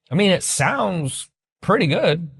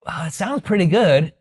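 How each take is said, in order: First: Slow, hesitant prospect; hesitant, lukewarm. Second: Lukewarm. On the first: Shown as a demonstration. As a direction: drag it out, unconvinced. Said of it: "If they say". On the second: Retold or imitated. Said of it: "If they go".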